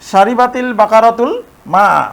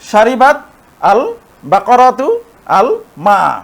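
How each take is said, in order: First: The words are joined with an added linking 'i' vowel. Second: The words are read apart without a linking vowel. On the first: "এখানে একটি জের নিয়ে আসতে হবে। এখন কিন্তু আমরা উচ্চারণ করতে পারবো" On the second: "দুটি সুকুন পাশাপাশি এসেছে, যে কারণে কিন্তু আগেরটির সাথে পরেরটি মিলিয়ে আর পড়া যাচ্ছে না"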